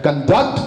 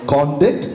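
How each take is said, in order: First: It is pronounced in its verb form. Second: It is pronounced in its noun form. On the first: It names the action of conducting. "Conduct is verb" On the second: It names behaviour, as in a conduct certificate. "conduct is noun"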